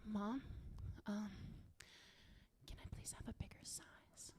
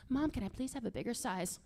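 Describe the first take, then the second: First: Timid, barely audible whisper; embarrassed kid whispering to mom. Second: Said in the usual way. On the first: Acted. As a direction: whisper it haltingly through a cracked door. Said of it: "Mom, I was whispering to you". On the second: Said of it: "Talk louder".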